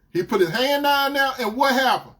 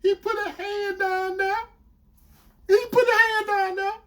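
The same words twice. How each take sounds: First: Louder, higher demanding repeat; outraged boyfriend. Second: Very high mimicked wail; confessing girlfriend. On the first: Retold or imitated. Boyfriend confronting her confession, outraged. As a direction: throw it back and demand more. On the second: Girlfriend confessing where his hand went, imitated high-pitched. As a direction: repeat it in a high, strained imitation.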